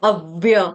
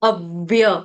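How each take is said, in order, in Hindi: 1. पहला अक्षर आघातयुक्त है, v दोहरा है। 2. पहला अक्षर आघातयुक्त है, v दोहरा है।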